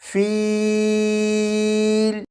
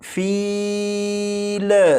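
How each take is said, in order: First: The sound stops cleanly on the final L. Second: The final L ends with an echoing bounce. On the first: The speaker calls it right. "जब आप लाम पर पहुंचे तो आवाज़ ख़त्म कर दीजिएगा" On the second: The speaker calls it wrong. "इस लाम को इस तरह से ना पढ़िएगा"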